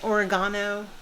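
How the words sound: It is said in a British pronunciation.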